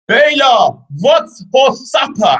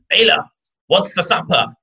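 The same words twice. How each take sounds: First: It is screamed at full volume. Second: It is said at a normal volume.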